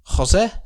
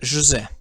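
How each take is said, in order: First: It is pronounced the Spanish way, with an h-like sound. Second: It is pronounced the Portuguese way, without an h-like sound.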